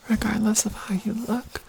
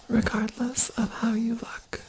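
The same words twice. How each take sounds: The two takes are said the same way.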